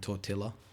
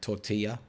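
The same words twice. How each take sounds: First: The L sounds in the word are plain. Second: The L sounds in the word are rolled. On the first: "rather than tortilla" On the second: "you roll your L's as well. So like tortilla"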